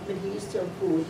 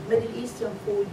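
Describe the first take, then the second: No difference in how they are said.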